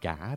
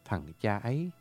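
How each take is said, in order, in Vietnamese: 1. Nó được gộp thành một âm tiết với thanh hỏi. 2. Nó được nói thành ba âm tiết riêng biệt.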